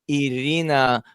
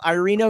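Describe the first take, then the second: First: The name is said with a Russian accent. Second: The name is said with an American accent. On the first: "say my name with Russian, you know, proper Russian pronunciation" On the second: "Let's do it American style"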